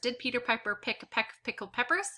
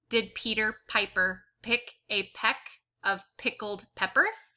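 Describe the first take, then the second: First: It is read as fast as possible. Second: It is read at an ordinary, unhurried pace.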